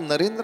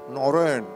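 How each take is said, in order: First: It is said in a plain Marathi way. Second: It is said round-mouthed, in Bengali style. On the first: "नरेंद्र असं तिथे उच्चार होत नाही" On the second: "रसगुल्ला ठेवला का जिभेवर, आता बोला"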